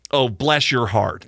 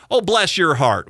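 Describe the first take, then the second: First: Said in the usual way. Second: A light Southern "Oh, bless your heart", higher and louder; sweet Southern lady saying "Oh, bless your heart"; Southern drawl. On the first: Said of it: "the old adage". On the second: Retold or imitated. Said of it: "the Southern".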